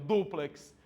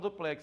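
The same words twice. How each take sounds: First: The stress is on the first syllable. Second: The stress is on the last syllable. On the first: The speaker calls it right. "O que dói é eu falar o correto" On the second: The speaker calls it wrong. "Quase todo mundo fala duplex"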